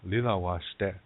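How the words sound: It is said in Lakota, with L sounds.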